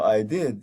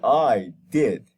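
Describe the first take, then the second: First: It sounds apologetic and soft. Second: It sounds defiant and challenging. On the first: The speaker is sorry for what happened. "like apologetic" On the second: The speaker is daring the other person. "So now you are showing an attitude"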